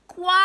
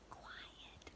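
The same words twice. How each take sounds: First: It is yelled loudly. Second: It is said softly and quietly.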